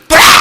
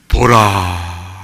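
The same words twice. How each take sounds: First: The word is shouted loudly. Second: The word is said softly and calmly.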